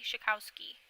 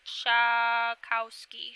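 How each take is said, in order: First: Said in the usual way. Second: "Schakowsky" slowly, with a long loud SHAH first; sounding out a name. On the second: Real, not acted. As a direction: stretch "Schakowsky" out as SHAAH-kow-skee. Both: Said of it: "make sure I'm pronouncing them correctly".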